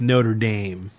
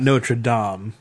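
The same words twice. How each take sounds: First: It is said with an English pronunciation. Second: It is said with a French pronunciation. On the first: The speaker calls it right. "It's Notre Dame" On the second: The speaker calls it wrong. "It's not Notre Dame"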